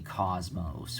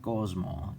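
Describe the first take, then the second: First: The word ends with an s sound. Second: The word ends without an s sound. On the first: "we don't say cosmos" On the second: "We say cosmo. You know, the S is silent"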